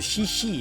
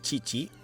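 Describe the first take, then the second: First: The name is said the English way. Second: The name is said the Indonesian way. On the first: "kalau dalam bahasa Inggris itu dia nyebut dirinya sendiri itu Shishi" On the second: "namanya Cici"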